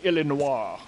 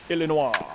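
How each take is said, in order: First: It is said the French way. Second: It is said the American way.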